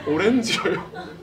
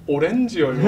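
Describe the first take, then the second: First: 오렌지예요 drawn out slowly, laughing; slow savoring repeat. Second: Proud deadpan answer. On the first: Retelling the chairman's word slowly, laughing. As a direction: relish each syllable of 오렌지예요 with a laugh. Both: Retold or imitated. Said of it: "평생 잊지 못할 말".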